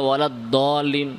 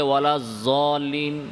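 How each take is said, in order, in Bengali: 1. মূল ব্যঞ্জনধ্বনিটি d-এর মতো শোনায়। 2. মূল ব্যঞ্জনধ্বনিটি z-এর মতো শোনায়। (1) "কেউ দালের মতো উচ্চারণ করে" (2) "কেউ দদকে ভয়ের মতো উচ্চারণ করে"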